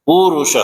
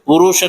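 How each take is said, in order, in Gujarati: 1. પહેલો સ્વર u લાંબો બોલાય છે. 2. પહેલો સ્વર u ટૂંકો બોલાય છે. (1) "પણ પુરુષ" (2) "નહીં"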